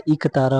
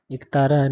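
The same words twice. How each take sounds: First: इक तारा opening on a short i; correct pronunciation. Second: एक तारा opening on a long e; wrong pronunciation. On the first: Teacher giving the correct form, short-i "iktara". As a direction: say इक तारा as "ik-tara". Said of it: "होता है शुद्ध रूप". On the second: Teacher showing the wrong form, long-e "ektara". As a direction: say एक तारा as "ek-tara". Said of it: "नहीं होता". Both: Shown as a demonstration.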